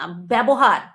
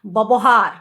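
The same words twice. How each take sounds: First: "ব্যবহার" opened with an "e" vowel, bebohar; pronunciation example. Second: "ব্যবহার" as "bobohar", louder, rounded first vowel; alternate pronunciation. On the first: Vlogger gives viewers an example, "ব্যবহার" as bebohar. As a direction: say "ব্যবহার" as be-bo-har, last syllable long. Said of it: "যেমন কিনা একটা দেখছিলাম". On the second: Vlogger shows viewers the other "ব্যবহার", loud bobohar. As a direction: say "ব্যবহার" loudly as bo-bo-har. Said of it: "বিধিনিষেধ উঠে গেছে". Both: Shown as a demonstration.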